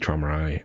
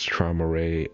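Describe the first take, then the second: First: The name ends with an 'eye' sound. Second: The name ends with a 'ray' sound. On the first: The speaker calls it right. "when it should be Trauma Eye" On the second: The speaker calls it wrong. "I always pronounce it as Trauma Ray"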